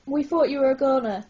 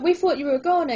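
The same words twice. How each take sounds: First: Quick excited blurt. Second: Louder, bouncy excited blurt. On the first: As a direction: blurt it out, relieved. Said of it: "Izzy blurt". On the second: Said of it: "Izzy blurts, bouncing up and down". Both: Acted.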